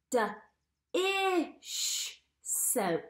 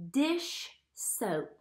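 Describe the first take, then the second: First: D-ish soap with the first sound split off and drawn out slowly; sounding out D-ish soap for children; stretched sounds. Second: Said in the usual way. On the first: Shown as a demonstration. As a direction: segment D-ish soap: d, then a long ish. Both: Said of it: "what digraph do you hear?".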